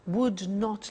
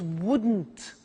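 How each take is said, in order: First: Both words are said in full. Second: The words are contracted into one word.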